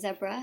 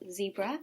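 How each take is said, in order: First: Zebra is said the local, non-American way. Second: Zebra is said the American way.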